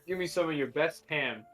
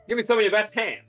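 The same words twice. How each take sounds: First: It is said in the speaker's ordinary accent. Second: It is said in a put-on Brooklyn-style accent.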